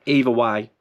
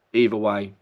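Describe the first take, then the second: No difference in how they are said.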